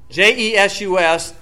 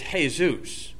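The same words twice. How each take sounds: First: The name is said with English sounds. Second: The name is said with Spanish sounds.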